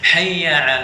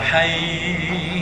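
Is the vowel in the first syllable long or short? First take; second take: short; long. First: The first vowel is kept short. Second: The first vowel is drawn out long. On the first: The speaker calls it right. "Intinya dia tidak ada panjang di sini" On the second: The speaker calls it wrong. "nggak ada. Itu sa salah"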